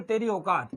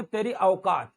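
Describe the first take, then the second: First: औकात as "okat"; no glide at the start of औकात; wrong single vowel. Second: औकात as "a-okat"; correct double vowel. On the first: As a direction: say औकात with a pure "o". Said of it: "किसी को नहीं बोलेंगे". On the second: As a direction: open औकात on "a", slide to "o". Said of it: "क्या बोलेंगे". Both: Shown as a demonstration.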